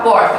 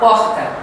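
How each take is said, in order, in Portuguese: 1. É falada sem sotaque carioca. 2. É falada com sotaque carioca. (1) "Não vai falar porta" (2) "vão falar porta"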